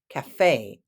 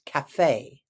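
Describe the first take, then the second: First: The stress is on the second syllable. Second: The stress is on the second syllable.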